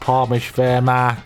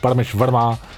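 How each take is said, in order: First: It is said in a put-on bloke's voice. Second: It is said in his natural voice.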